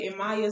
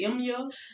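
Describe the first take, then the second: First: The name is said with three syllables. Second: The name is said with two syllables. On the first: The speaker calls it right. "Emaya sounds better" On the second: The speaker calls it wrong. "I was about to say Emya, like, no"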